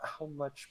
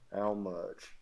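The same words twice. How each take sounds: First: It is said in a plain male voice. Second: It is said with a southern drawl. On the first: "in the voice of a, uh, human male" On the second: "Little southern drawl to it too"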